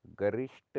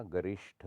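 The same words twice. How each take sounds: First: गरिष्ठ said as garisht; no puff of air ending गरिष्ठ; unaspirated t. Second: गरिष्ठ ending in breathy tha; aspirated th. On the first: Teacher shows the error, गरिष्ठ with ट. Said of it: "नहीं होता". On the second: Teacher corrects it, गरिष्ठ with breathy ठ. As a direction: puff air on the ठ of गरिष्ठ. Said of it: "होता है". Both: Shown as a demonstration.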